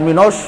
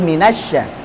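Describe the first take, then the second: First: The vowel after the s sounds thick and rounded. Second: The vowel after the s sounds thin and open. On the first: The speaker calls it wrong. "Jangan minos" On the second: The speaker calls it right. "Minas tipis"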